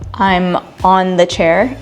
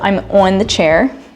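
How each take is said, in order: First: It is said in a general American accent. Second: It is said in a Baltimore accent.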